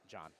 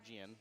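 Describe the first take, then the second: First: The name is said as John. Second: The name is said as Gian. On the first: The speaker calls it right. "So pronounced John" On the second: The speaker calls it wrong. "So not Gian"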